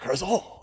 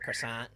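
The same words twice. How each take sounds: First: It is said with a French-style pronunciation. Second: It is said with a plain American pronunciation. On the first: "I'll never say that"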